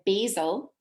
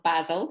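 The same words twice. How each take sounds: First: It is said the American way. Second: It is said the Scottish way.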